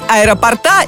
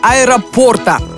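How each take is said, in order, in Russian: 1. Ударение на последнем слоге. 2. Ударение на слоге 'por'. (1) "ставить ударение на последний слог неправильно" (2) "ударная буква «о»"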